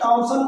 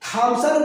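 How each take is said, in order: First: The first sound is a plain t. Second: The first sound is an aspirated t. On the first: "चाहे आप इसको टॉमसन कहिए" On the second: "थॉमसन कहेगा या टॉमसन कहेगा"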